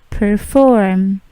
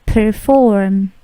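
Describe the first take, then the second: No difference in how they are said.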